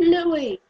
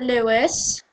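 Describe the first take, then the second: First: The name ends with an ee sound. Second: The name ends with an s sound. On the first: This is how people in the UK say the name. The speaker calls it right. "We pronounce it Louis" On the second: This is how Americans say the name. The speaker calls it wrong. "You Americans might pronounce it Lewis"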